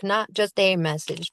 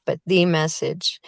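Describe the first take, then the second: First: Said in the usual way. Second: "the" weighted as THE message, set against "a"; stress on THE. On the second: Shown as a demonstration. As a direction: lean on "the" to mean the one true message.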